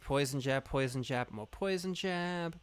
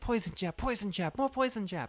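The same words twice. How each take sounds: First: It is said in a plain, ordinary voice. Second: It is said in a put-on character voice.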